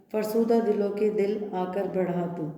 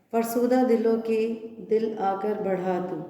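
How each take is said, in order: Both takes have the same delivery.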